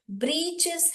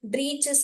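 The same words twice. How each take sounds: First: ब्रीचेस said as "britches", short i; ब्रीचेस spoken clearly as britches; ब्रीचेस pronounced "britches"; correct pronunciation. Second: ब्रीचेस said as "britches", short i; ब्रीचेस spoken as britches; ब्रीचेस pronounced "britches"; correct pronunciation. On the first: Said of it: "actual word है". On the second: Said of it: "ऐसे ब्रीचेस कोई word नहीं है". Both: Shown as a demonstration.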